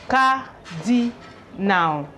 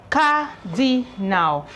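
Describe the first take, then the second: No difference in how they are said.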